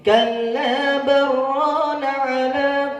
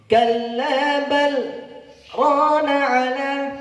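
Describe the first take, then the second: First: 'Bal' runs straight into 'rana' without a break. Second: A brief break separates 'bal' from 'rana'. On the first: The words merge and the meaning changes. The speaker calls it wrong. "kalau tidak diputus, kalau tidak saktah menjadi" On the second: The words stay separate and keep their meaning. The speaker calls it right. "Tujuannya memutus itu sebenarnya"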